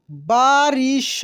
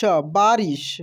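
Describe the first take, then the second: First: बारिश slowly as baa, ri, sha; syllable by syllable. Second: Said in the usual way. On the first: Shown as a demonstration. Teacher reading for learners, बारिश slowly syllable by syllable. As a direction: stretch out each syllable of बारिश. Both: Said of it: "अब direct पढ़ते हैं".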